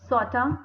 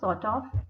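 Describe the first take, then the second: First: The words merge, and 'of' becomes a short vowel. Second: The words are said separately, with a full 'of'.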